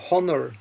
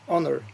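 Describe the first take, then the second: First: The word begins with a sounded H. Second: The word begins with a silent H. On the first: The speaker calls it wrong. "you don't say honor" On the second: The speaker calls it right. "You say homage, honor"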